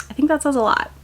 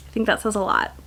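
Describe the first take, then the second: First: Said in the usual way. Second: Softer knowing echo of the line; quieter pointed repeat. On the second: Shown as a demonstration. Creator repeats her point to viewers, quieter and knowing. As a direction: drop the volume on the repeat, letting it sink in.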